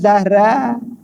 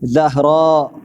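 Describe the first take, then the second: First: The word ends openly, without a glottal stop. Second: The word ends with a glottal stop. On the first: The speaker calls it wrong. "bukan Zahra" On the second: The speaker calls it right. "di hujung tu ada alif hamzah"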